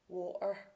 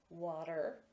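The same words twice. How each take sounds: First: It ends with a Scottish-style R sound. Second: It ends with an American-style R sound. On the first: "So Scottish speakers would say" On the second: "American speakers would say"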